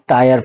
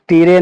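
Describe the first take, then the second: First: The vowel sounds like 'eye', ending in 'er'. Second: The vowel sounds like 'ee', with a final 're'. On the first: The speaker calls it right. "टायर पढ़ना है" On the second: The speaker calls it wrong. "तीरे नहीं पढ़ना है"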